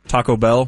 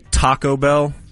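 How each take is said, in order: First: The stress is on the word Bell. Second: The stress is on the word Taco. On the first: The speaker calls it right. "instead of" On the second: The speaker calls it wrong. "they'll emphasize the first part"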